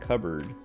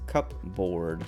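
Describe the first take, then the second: First: Said reduced, not following the spelling. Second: Said as spelled, with a full 'board' ending. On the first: "but you pronounce it cupboard" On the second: "cupboard is cupboard"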